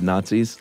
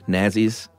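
First: It uses the usual modern pronunciation of the word. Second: It uses an old-fashioned pronunciation of the word.

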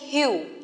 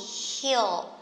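First: The vowel is short and lax. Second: The vowel is a long e sound. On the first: The speaker calls it wrong. "Don't say heel, okay? That is not heel" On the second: The speaker calls it right. "This is long e heel"

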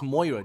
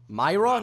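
First: The first syllable sounds like 'moy'. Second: The first syllable sounds like 'my'. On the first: The speaker calls it right. "No, it's Moira, dude. You not see the O?" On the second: The speaker calls it wrong.

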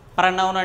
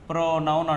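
First: The first syllable is pronounced 'pra'. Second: The first syllable is pronounced 'pro'. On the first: The speaker calls it wrong. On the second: The speaker calls it right.

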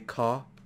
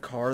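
First: It is said British-style, without the final R. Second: It is said with the final R sounded.

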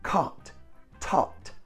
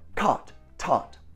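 First: The words are said at a normal pace. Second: The words are said at a quicker pace. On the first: "Now say them with me" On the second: "Now faster"

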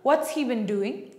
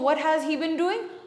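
First: The word has is reduced to an s sound. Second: The word has is pronounced in full.

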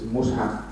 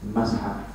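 First: The first vowel is an u sound. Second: The first vowel is an a sound. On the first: "One is Mus'haf" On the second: "three, Mas'haf"

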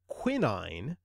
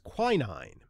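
First: It uses a mixed pronunciation. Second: It uses the usual American pronunciation. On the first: "The mixed pronunciation of quinine" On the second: "what is usually labeled as the American pronunciation, is quinine"

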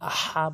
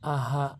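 First: The h is a deep throat h. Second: The h is a light, breathy h. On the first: The speaker calls it right. "আহা বলতে হবে" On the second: The speaker calls it wrong. "অনেকে ভুল বলে আহা, ছোট হা এনে উচ্চারণ করে"

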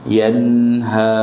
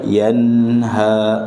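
No difference in how they are said.

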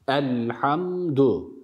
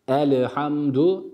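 First: The l is closed with no vowel after it. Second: A vowel sound follows the l. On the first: The speaker calls it right. "bu lamın sakinliğini belirterek, açığa çıkararak okuyoruz" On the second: The speaker calls it wrong. "elhamdu değil. Lam sakindir"

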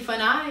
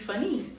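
First: The final vowel sounds like 'eye'. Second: The final vowel sounds like 'ee'. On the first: The speaker calls it wrong. "that can't be funi" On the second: The speaker calls it right. "It has to be funny"

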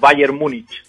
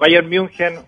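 First: The city name has a Spanish pronunciation. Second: The city name has a German pronunciation. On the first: "o también se le puede decir en castellanizado" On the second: "Correctamente en alemán se diría Bayern München"

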